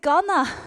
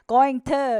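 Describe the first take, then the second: First: The words are reduced and run together. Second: Each word is said fully and separately. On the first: This is casual, informal speech. The speaker calls it wrong. "건아가 너무 자연스럽잖아 ... 비격식적인 표현" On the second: This is formal speech. The speaker calls it right. "going to 이렇게 바꿔주시기 바랍니다"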